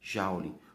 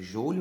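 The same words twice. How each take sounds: First: The first vowel is said like A. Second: The first vowel is said like O. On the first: "no lugar do O, você pronuncia um A" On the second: "se escreve joule"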